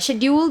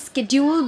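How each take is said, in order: First: It starts with an 'sh' sound, British style. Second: It starts with an 'sk' sound, American style. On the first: "शेड्यूल बोलते हैं British English में" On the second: "schedule बोलते हैं American English में"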